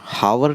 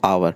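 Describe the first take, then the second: First: The word begins with an h sound. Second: The word begins with a vowel sound. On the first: The speaker calls it wrong. "हावर नहीं पढ़ेंगे" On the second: The speaker calls it right. "क्या पढ़ेंगे इसको? आवर।"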